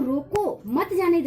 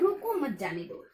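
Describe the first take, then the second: First: The pause comes after रोको. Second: The pause comes after मत.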